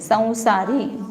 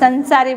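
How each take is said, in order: First: The first syllable has a nasalized vowel. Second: The first syllable has a full n consonant. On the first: "नानुनासिक उच्चारण करते हैं" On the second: "न बोलते उसको"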